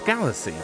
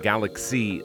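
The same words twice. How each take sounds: First: The middle consonant is pronounced as 's'. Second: The middle consonant is pronounced as 'ks'. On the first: The speaker calls it right. "It's CY, it's not XY" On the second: The speaker calls it wrong. "I've been hearing people pronounce it Galaxy lately, and there's no way that's how it's pronounced"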